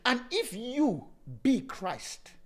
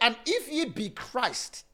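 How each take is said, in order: First: The phrase is spoken slowly and deliberately. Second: The phrase is spoken at a normal pace.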